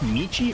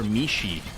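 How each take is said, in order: First: The middle consonant is a 'ch' sound. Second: The middle consonant is an 'sh' sound. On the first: "Is it a ch" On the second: "or a sh sound?"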